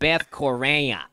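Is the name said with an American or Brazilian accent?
American. It is said in a nasal American Chicago accent. The speaker calls it wrong. "if you're a nice nasally Chicagoan"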